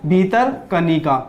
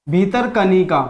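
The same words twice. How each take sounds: First: Slow, careful spelling out of Bhitarkanika; slow drill. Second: Said in the usual way. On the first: Shown as a demonstration. Teacher drilling students on a park name, slow and careful. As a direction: say Bhitarkanika slowly, syllable by syllable. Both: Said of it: "कौन सा?".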